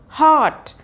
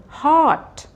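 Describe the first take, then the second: Both takes have the same delivery.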